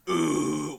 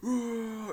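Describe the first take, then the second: First: It is a low throaty growl. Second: It is an open, powerful roar.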